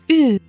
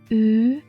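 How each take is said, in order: First: The pitch falls sharply from high to low. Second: The pitch rises from middle to high.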